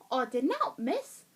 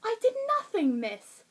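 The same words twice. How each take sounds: First: Botched northern English, sounding Cockney; attempted northern accent slipping into Cockney. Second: Said in the usual way. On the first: Shown as a demonstration. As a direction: try northern, land in Cockney. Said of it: "why that came out Cockney". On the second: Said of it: "if you said something like".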